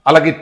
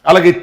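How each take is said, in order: No difference in how they are said.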